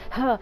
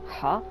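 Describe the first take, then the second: First: It sounds sharp and startled. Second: It sounds mildly puzzled, caught off guard.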